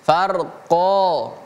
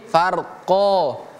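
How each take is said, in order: No difference in how they are said.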